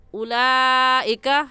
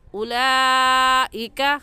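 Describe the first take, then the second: Both takes have the same delivery.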